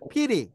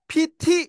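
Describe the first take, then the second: First: The middle consonant is a soft d. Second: The middle consonant is a clear t. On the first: The speaker calls it right. "그래서 피디 이렇게 하시면 돼요" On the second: The speaker calls it wrong. "T 이렇게 발음을 안 합니다"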